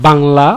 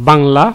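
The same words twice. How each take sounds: The two takes are said the same way.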